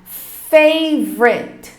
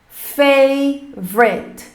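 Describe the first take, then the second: No difference in how they are said.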